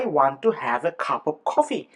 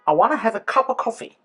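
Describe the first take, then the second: First: Want to is said as two full words. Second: Want to blends into one reduced word.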